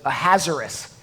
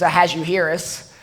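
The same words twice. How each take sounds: First: The name is said in a simpler, easier form. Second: The name is said in its full, harder form. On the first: This is the form most speakers use. "most speakers prefer to pronounce it" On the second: This is the proper pronunciation. "The proper way to pronounce his name"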